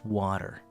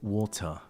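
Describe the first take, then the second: First: The final r sound is clearly pronounced. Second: The final r sound is dropped. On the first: "you focus on that shit. In English, it's water" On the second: "with an English accent, you might say something like water ... it's almost like you're ignoring the er"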